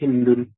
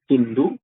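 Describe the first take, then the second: First: The name ends with an added n sound. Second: The name ends in a vowel without n. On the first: "kita baca dengan mentanwinkan Hindun"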